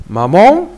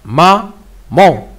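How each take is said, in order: First: Said in the usual way. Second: "Maman" in two beats, "ma... man"; split into syllables. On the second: Shown as a demonstration. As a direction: pause clearly between "ma" and "man". (« Maman » découpé en deux syllabes : « ma… man ») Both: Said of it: "on doit le diviser en syllabes".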